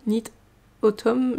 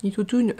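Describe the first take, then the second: First: AUTUMN said as "otom", split off after a pause; careful French-accented attempt. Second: AUTUMN said as "otoun", French-style; French-accented mispronunciation. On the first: Knitter correcting her hashtag, AUTUMN as "otom". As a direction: try Knit, pause, then Autumn ending in "om". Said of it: "Je sais même pas comment on dit". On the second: Knitter retrying the hashtag, French-accented AUTUMN as "otoun". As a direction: say Autumn with an "oon" ending. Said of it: "mon accent anglais". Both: Real, not acted.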